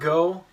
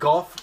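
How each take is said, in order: First: The name ends without any f sound. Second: The name ends with an f sound. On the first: "I call it Go" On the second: "Everybody calls it golf"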